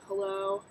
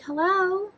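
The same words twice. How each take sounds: First: The greeting sounds flat and unenthusiastic. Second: The greeting sounds bright and enthusiastic. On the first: The speaker lacks enthusiasm. The speaker calls it wrong. "don't kind of answer the phone and be like" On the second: The speaker shows enthusiasm. The speaker calls it right. "Be like, ... make sure you have that Disney talk"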